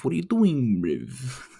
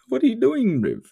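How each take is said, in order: First: Higher mock voice teasing a helpless guy; mock taunt. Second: Much higher, louder squeal with a laugh; squeaky mock taunt. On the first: Taunting someone dragging his nuts on glass, mock voice. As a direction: tease him in a raised put-on voice. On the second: Laughing at someone lost in the conversation, squeaky mock taunt.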